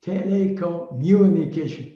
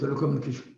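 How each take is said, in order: First: The word is said with strong force. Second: The word is said flatly, without force. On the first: The speaker calls it right. "give it some kind of power" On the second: The speaker calls it wrong. "Don't say telecommunication"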